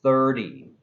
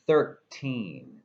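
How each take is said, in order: First: "Thirty" with the T softened to a quick D; flapped T. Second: "Thirteen" with a crisp aspirated T; clear T. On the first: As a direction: say "Thirty" like "thirdy". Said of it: "clearly a D sound". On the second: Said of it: "clearly a T sound". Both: Shown as a demonstration.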